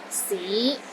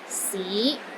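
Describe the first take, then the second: First: The pitch rises from low to middle. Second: The pitch rises from low to middle.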